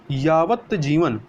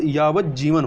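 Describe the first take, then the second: First: यावत जीवन with a clear separate t; wrong form. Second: यावत जीवन with t turned into doubled j; correct sandhi. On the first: Teacher shows the error, यावत जीवन with t. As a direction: say यावत जीवन slowly as "yavat jivan". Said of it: "ता नहीं होता है". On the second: Teacher gives learners the correction, यावत जीवन with double j. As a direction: say यावत जीवन as "yavaj-jivan". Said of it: "आधा जा". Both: Shown as a demonstration.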